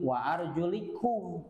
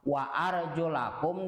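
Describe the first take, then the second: First: The vowel after arjul is an i sound. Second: The vowel after arjul is an a sound. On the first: The feet are to be wiped. "antara fathah dan kasrah" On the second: The feet are to be washed with water. "antara fathah dan kasrah"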